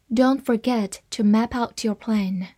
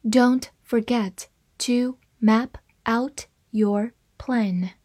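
First: Said in the usual way. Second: Slow, word-by-word model reading. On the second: Shown as a demonstration. English teacher models the sentence for learners, reading slowly. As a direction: read it very slowly, pausing between words. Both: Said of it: "慢慢来读".

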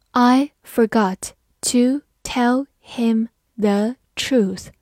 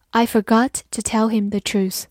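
First: Slow, word by word with gaps; slow reading. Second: Said in the usual way. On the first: Shown as a demonstration. Teacher leads learners through the first sentence, slowly. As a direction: read it slowly, pausing after each word. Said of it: "好，慢慢来读". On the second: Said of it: "慢慢来读".

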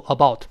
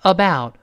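First: "about" with a short, narrow o vowel; rounded vowel error. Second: "about" with ah gliding into oo; wide-open diphthong. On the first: Teacher shows learners what to avoid, "about" with narrow vowel. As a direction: mispronounce "about" without opening the vowel. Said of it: "不要读about". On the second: Teacher models for learners, "about" with wide gliding vowel. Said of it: "先发啊". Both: Shown as a demonstration.

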